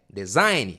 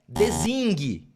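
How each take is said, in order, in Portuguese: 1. A palavra é pronunciada de forma simples e normal. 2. A palavra é pronunciada de forma exagerada de propósito. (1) "é design" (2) "eu quero soar bem ruim para você memorizar. Não é design"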